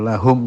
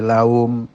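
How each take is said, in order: First: The h sound is clearly heard. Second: The h sound is almost or fully missing. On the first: The speaker calls it right. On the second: The speaker calls it wrong.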